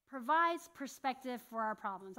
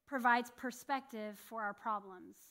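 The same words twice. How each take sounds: First: Said in the usual way. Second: Slow emphasis. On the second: Shown as a demonstration. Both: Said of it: "repeated right after".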